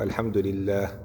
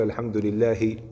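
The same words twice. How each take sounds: First: "الحمد لله" ending silent on the h, lillah; right way: stop on "لله" with no final vowel; correct stop on sukun. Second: "الحمد لله" ending on a voiced final vowel, lilːahi; wrong way: stop on "لله" keeping the final kasra. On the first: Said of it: "تقول". (وقف صحيح بالسكون على "لله") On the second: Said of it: "ما تقول". (وقف خاطئ بالحركة على "لله") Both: Shown as a demonstration.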